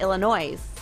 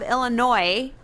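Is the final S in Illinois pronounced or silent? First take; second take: pronounced; silent. First: The final S sound is pronounced. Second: The final S sound is left silent. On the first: The speaker calls it wrong. "With an S" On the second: The speaker calls it right. "with the S being silent"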